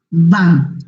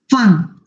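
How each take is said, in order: First: The word begins with a v sound. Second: The word begins with an f sound. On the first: The speaker calls it wrong. "no van" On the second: The speaker calls it right. "Fan, no van, porque es alemán"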